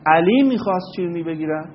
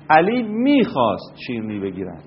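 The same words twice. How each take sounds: First: The stress falls on the word علی. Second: The stress falls on the word میخواست. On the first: Nobody expected this person to want to buy sweets. "اگر شما بر روی کلمه علی تمرکز بکنید و تکیه صداتون رو ببرید اونجا، اینطور بگید" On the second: He wanted to before but no longer does. "این تکیه رو ببرید روی میخواست"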